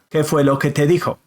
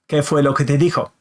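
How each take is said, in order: First: All the words run together quickly. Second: The same.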